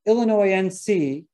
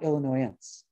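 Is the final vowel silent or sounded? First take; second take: sounded; silent. First: The final vowel is sounded as its own syllable. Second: The final vowel is silent, dropping a syllable. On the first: The speaker calls it right. "Always pronounce that terminal E" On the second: The speaker calls it wrong. "not Illinoisense"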